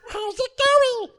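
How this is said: It is said in an Elmo voice.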